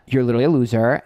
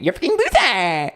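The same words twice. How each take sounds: First: Said in the usual way. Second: High, distorted screech of an insult; theatrical high-pitched outburst; put-on HRH voice. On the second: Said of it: "be in my H R H for a second".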